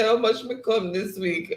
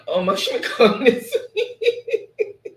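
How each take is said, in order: First: Said in the usual way. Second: Slow, laughing read-through of the comment; laughing so hard the words stretch out; laughing while reading. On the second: Real, not acted. Reading a funny chat comment.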